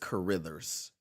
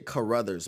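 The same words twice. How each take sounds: First: The name is said carefully with every syllable. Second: The name is said quickly and run together. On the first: The speaker calls it right. "but it's Carruthers" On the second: The speaker calls it wrong. "I always say Carruthers ... I just say it fast"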